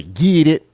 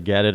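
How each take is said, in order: First: "get it" drawled out loud as "gee-it"; real Southern drawl. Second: Said in the usual way. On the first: Shown as a demonstration. Man mocking how some Southerners talk, drawled "get it" as "gee-it". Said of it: "they get the real Southern drawl". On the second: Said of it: "instead of".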